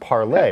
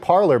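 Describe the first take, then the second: First: The name ends with an 'ay' sound. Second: The name ends with an 'er' sound. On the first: The speaker calls it right. "I think it's supposed to be pronounced parlay" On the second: The speaker calls it wrong. "it looks like Parler"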